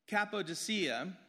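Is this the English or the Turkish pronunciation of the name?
English. The name is said the usual English way.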